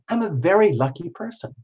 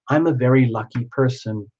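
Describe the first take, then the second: First: It is said in a theatrical, actorly tone. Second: It is said in a plain, ordinary tone.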